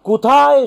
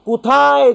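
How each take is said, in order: No difference in how they are said.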